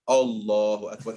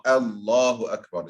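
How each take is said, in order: First: Allahu Akbar opening on a dark, heavy 'o'-like A; long heavy first A in Allahu Akbar; mispronounced heavy hamza. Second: Allahu Akbar opening on a thin, light A; correct light hamza. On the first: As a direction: say Allahu with a thick, rounded first vowel. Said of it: "suddenly out of nowhere". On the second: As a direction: say Allahu with a light first A as in 'at'. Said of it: "is the correct". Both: Shown as a demonstration.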